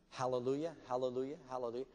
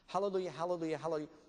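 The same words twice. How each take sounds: First: It is said at a slower pace. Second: It is said at a faster pace.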